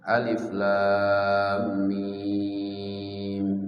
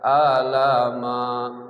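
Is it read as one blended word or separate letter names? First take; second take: separate; blended. First: Each letter name is said separately. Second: The letters are blended into one word. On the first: The speaker calls it right. "huruf-huruf yang dibaca terputus-putus" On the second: The speaker calls it wrong. "Kalau tanpa guru nanti bacanya alif lam mim, dibaca alama"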